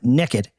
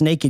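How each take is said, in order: First: The first vowel sounds like 'neck'. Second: The first vowel sounds like 'nay'.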